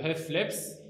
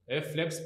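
First: Hefleps said slowly, each sound spelled out; slow model word. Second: Said in the usual way. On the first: Shown as a demonstration. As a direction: draw out Hefleps syllable by syllable for the class. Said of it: "Commençons avec, euh, Hefleps". (Hefleps prononcé lentement, syllabe par syllabe)

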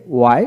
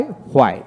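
First: ওয়াই begun with a plain w, no h. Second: হোয়াই begun with h before the w; sounded H. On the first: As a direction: say ওয়াই as "wai". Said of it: "আমেরিকানে অ উচ্চারিত". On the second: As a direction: say হোয়াই as "hwai". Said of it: "ব্রিটিশে হ উচ্চারিত হয়". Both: Shown as a demonstration.

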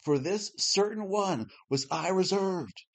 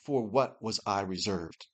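First: Slow, higher, falling as a firm statement; "For this certain one" said slowly as a declaration; read as a statement. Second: "what was I reserved" as an errant question; read as a question. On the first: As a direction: state it plainly with a final fall on "reserved". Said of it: "between the perfect". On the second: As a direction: ask it, leaning on "For" and "what". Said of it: "and the errant". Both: Shown as a demonstration.

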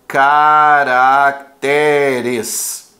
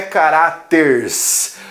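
First: Caracteres very slow, syllable by syllable, stress on TE; correct plural. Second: Caráteres said "ca-RÁ-ters", stressed on RÁ, drawn out; wrong plural. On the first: Teacher revealing the right plural, Caracteres slowly syllabled with TÉ stressed. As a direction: stretch ca-rac-TÉ-res, low and measured. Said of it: "desloca a sílaba tônica". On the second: Teacher rejecting a wrong plural, caráteres slow as ca-RÁ-ters. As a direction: stretch caráteres as ca-RÁ-ters with hissed final s. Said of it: "Não é caráteres". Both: Shown as a demonstration.

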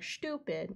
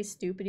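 First: Stupid with a crisp British S and T. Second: Said in the usual way. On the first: Retold or imitated. Streamer mocks the British Stupid, crisp S. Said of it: "you guys are like". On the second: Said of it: "we say stupid".

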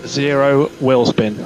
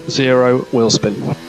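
No difference in how they are said.

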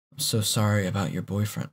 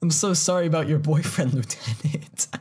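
First: Said in the usual way. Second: Hammed-up sorry, ending in a laugh; mock sympathy. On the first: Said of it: "the lieutenant's supposed to be saying that". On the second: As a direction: overplay the line to mock it. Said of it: "Sarah's saying it".

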